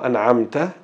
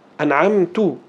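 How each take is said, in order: First: The word ends with a 'ta' sound. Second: The word ends with a 'tu' sound. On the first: God gave the favour. The speaker calls it right. "Tapi kalau an'amta, engkau ya Allah" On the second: The speaker himself gave the favour. The speaker calls it wrong. "Aku an'amtu, aku"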